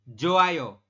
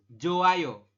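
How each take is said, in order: Both takes have the same delivery.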